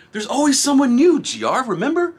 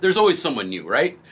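First: High and loud, calling it out; hyped reminder to himself; excited catchphrase. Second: Said in the usual way. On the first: Shown as a demonstration.

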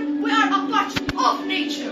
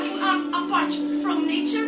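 First: "a part of" stressed as the correction. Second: "apart from" set off to mark separation; stress on apart from. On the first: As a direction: lean firmly on "part of" to counter separation. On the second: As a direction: lean on "apart from" as the idea being rejected. Contrasts apart with a part. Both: Acted.

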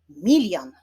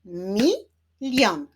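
First: Said in the usual way. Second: "Milion" split as mi, lion; syllable by syllable. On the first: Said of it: "wyklaszczmy sylaby w wyrazie". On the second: Shown as a demonstration. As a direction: clap out "Milion" with a gap between syllables. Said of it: "wyklaszczmy sylaby". („Milion” sylabami: mi, lion)

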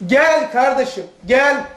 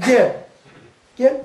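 First: Gently inviting brother; kind gel. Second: Curt angry "Gel." commands. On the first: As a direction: call him over kindly. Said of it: "İkisi de gel". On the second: Teacher shows an angry call, curt commands. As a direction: snap "Gel." like you're cross. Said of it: "Kızdığın zaman farklı". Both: Shown as a demonstration.

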